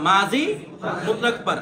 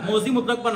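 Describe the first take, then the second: First: "মাজি" with a long open a, set apart before the rest; correct pronunciation. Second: "মোজি" with a rounded o in the first syllable; wrong pronunciation. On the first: Teacher correcting the Urdu rendering, "মাজি" with open a. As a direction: say "মাজি মুতলাক পর" with maa-ji, not mo-ji. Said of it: "মোজি মুতলাক পর না". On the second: Teacher rejecting a reading, "মোজি" with an o. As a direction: say "মোজি মুতলাক পর" with mo-ji, not maa-ji. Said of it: "না". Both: Shown as a demonstration.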